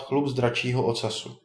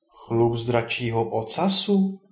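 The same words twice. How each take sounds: First: Said in the usual way. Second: Incredulous echo. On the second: A narrator's reading. Ondřej questions the wizard's strange demand, incredulous. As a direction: repeat it slowly as a puzzled question. Ondřej echoes the odd request.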